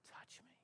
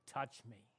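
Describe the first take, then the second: First: Breathy whisper of "Touch me.". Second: Soft, low, gentle "Touch me."; Jesus inviting the disciples to touch him, softly; quiet invitation. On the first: Jesus inviting the disciples, repeated in a whisper. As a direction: drop it to a bare whisper on "Touch me.". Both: Acted. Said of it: "and now he says".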